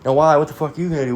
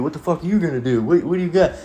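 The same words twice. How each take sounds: First: High, taunting dare; challenging thug. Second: Higher, altered tough-guy taunt; mocking tough guy. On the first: Retold or imitated. Skinhead daring the dad at the door, high taunting voice. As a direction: taunt him to try something. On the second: Skinhead taunting the dad, higher put-on tough voice. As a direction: sneer it like a bar thug. Thug challenging dad at door.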